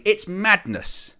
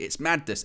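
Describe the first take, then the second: First: "it's madness" slow and high, leaning on "it's"; emphatic slowed-down "it's madness". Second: Said in the usual way. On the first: Real, not acted. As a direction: drag out "it's madness" with rising outrage. Repeated phrase, first take.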